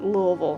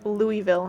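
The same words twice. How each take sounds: First: The name is mumbled, reduced and swallowed. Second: The name is said with clear, full syllables. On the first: This is how people from the area say it. "the locals pronounce it Louisville, which makes it sound like, you know, you gotta say it like you threw up a little bit in your mouth" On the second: This is the form outsiders would recognize. "I should say Louisville if you're not familiar with the area"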